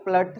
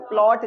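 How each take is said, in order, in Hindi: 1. स्वर छोटा 'uh' ध्वनि है। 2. स्वर खुला 'aw' ध्वनि है। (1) "प्लट तो अच्छा नहीं लग रहा" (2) "प्लॉट ज़्यादा अच्छा लग रहा है"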